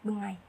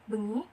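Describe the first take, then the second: First: The word ends in an 'ai' glide. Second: The word ends in a plain 'ee' vowel. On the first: "itu dalam bahasa Osing diucapkan bengai" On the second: "Lalu ada kayak misalnya seperti bengi"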